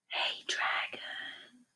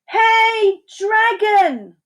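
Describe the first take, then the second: First: It is whispered very softly. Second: It is shouted very loudly.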